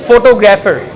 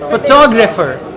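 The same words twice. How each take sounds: First: The stress falls on a misplaced syllable. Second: The stress falls on the standard syllable. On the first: The speaker calls it wrong. "now she's saying photographer. So this is what we call stress pattern" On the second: The speaker calls it right. "The right pronunciation is photographer"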